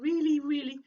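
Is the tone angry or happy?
happy. The voice sounds happy and cheerful. "a really, really happy tone of voice"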